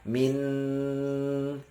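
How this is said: The nasal hum is held open through the nose. "kita tahan min"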